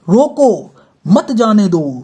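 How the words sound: The pause comes after the word 'roko'. Stop him; do not let him go. "रोको और यहाँ पे लगा दिया अल्पविराम"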